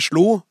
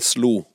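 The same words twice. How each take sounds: First: The s-sound is made further back in the mouth. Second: The s-sound is made at the front of the mouth. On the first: This is the pronunciation the letter writer does not use. "sier ikke slo" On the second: This is the letter writer's own pronunciation. "men slo"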